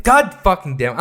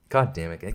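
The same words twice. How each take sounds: First: Higher and louder, God fucking damn it spat out; angry curse. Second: Low, soft, grumbled God damn it; muttered curse. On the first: Vlogger fed up with the Oscars film, cursing out loud. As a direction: let God fucking damn it burst out in real annoyance. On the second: Vlogger grumbling to himself about the film, low and soft. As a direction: mutter God damn it under your breath. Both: Real, not acted. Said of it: "I'm pissed off".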